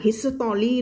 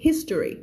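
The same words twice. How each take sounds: First: History with every syllable sounded out; over-articulated history. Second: History squeezed quickly into fewer syllables; run-together history. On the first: Teacher warns against reading every syllable, over-articulated history. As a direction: say "his-sa-to-lee", four full syllables. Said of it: "ไม่อ่าน history ด้วยนะ". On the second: Teacher shows how the syllables merge, run-together history. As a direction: say "HIS-tree" fast, middle swallowed. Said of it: "พวกนี้มันจะรวบเร็ว". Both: Shown as a demonstration.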